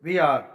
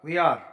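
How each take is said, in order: Both takes have the same delivery.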